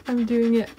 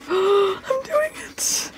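First: Said in the usual way. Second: High, slow, drawn-out whimper of "I'm doing it"; anxious cry. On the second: Real, not acted. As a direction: wail it out as you finally scratch. Scratching the card in suspense.

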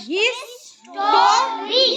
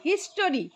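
First: Very slow হিস-টো-রি, higher pitched; syllable by syllable. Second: Said in the usual way. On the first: Shown as a demonstration. Teacher leading the class to count syllables, syllable by syllable. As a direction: stretch history into three long beats. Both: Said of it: "হিস্টোরিটা কি বলো তো?".

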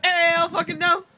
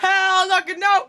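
First: Rising hype yell, slowed; shouted. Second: Loud slow hype shout. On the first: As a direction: shout it with a cracking rise. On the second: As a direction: yell it like a club host. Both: Pretend. Club hype call-and-response.

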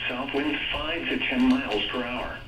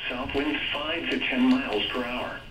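Both takes have the same delivery.

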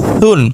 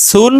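First: সুন begun with a soft th-like sound. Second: সুন begun with a firm, hissed s; hard S. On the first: Teacher drilling two S sounds, soft সুন. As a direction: soften the স of সুন into a gentle th. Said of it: "আর একটা নরম". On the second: Teacher drilling two S sounds, hard সুন. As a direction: keep the স of সুন hard and sharp. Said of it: "একটা শক্ত". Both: Shown as a demonstration.

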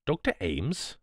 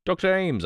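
First: Stunned, questioning rise on the name; stupefied. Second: High, urgent call for the doctor; urgent cry. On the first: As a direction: say the name in hushed disbelief. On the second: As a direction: cry out the name in alarm. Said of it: "I cried". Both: A narrator's reading.

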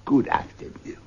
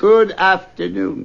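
First: Clipped cold goodbye; curt dismissal. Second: Slow, pointed goodbye; firm dismissal. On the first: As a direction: send him away coldly. Scrooge dismisses nephew. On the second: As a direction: insist he leave now. Scrooge repeats dismissal firmer. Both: Acted.

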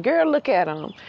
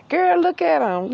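First: Gossiping hen. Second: Gossiping female bird, much higher and louder; excited gossiping hen. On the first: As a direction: nudge your girlfriend and point him out. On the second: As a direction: squeal it to your friend, all worked up. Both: Pretend. She's sitting around here telling.

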